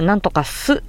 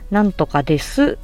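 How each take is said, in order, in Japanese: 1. 文末は短い'su'に縮められます。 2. 文末の'desu'は最後まで言います。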